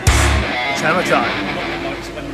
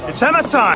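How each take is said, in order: First: It is said calmly, with less energy. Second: It is said excitedly, with more energy.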